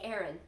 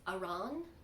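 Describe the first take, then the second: First: The word sounds like the name Aaron. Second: The word does not sound like Aaron. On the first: "like the boy's name" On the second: "maybe it's Aran"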